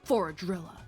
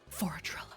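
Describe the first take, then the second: First: It is said in a normal, unwhispered voice. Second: It is said in a soft whisper. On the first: The speaker calls it wrong. "He doesn't whisper. He's just like" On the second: The speaker calls it right. "where Old Agenti was like"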